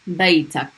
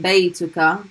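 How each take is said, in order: First: The word ends with a final consonant. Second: The word ends with a final vowel. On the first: This is the shortened spoken form. "they'll say baytak" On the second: This is the full formal form. "instead of saying baytuka"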